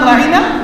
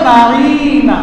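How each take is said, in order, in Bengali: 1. শব্দটি ছোট করে বলা হয়েছে, কোনো অতিরিক্ত ধ্বনি ছাড়াই। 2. স্বরটি 'ya' ধ্বনি দিয়ে টেনে বলা হয়েছে। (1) "সাহাবায়ে কেরাম বলতো রাঈনা" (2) "একটু টান দিয়ে ইয়া যুক্ত করে বলতো"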